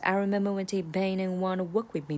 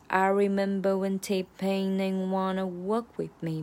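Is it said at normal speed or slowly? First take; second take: normal speed; slowly. First: It is said at normal speed. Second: It is said slowly.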